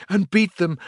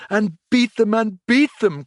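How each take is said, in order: First: Higher, louder gleeful chant; ecstatic cry. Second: Much higher and louder, gleeful; ecstatic shout. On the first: Toad rallying friends, rising ecstatic cry. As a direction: start the chant with glee. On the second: Toad dancing round the room, ecstatic shouting. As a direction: beat them at the top of the voice. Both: A narrator's reading. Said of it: "cried the Toad in ecstasy".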